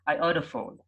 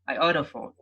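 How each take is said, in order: First: The two T sounds merge into one. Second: The two T sounds merge into one.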